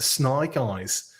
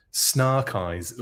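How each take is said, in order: First: Put-on slow Australian-accented name. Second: SNARK EYES with an "ar" vowel in Snark; altered vowel. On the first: Host playing with the figure's name, Australian accent. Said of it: "doing it in an Australian accent". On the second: Pretend. Host playing with the figure's name, altered vowel. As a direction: stretch "Snark" slowly with an open ah. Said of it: "almost sound like Snake Eyes".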